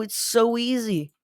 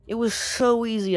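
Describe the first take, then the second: First: Slow, high, gloating in a put-on voice; put-on voice drawing out the gloat; gleeful. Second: Said in the usual way. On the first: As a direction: savour how easy it is. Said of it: "I was like".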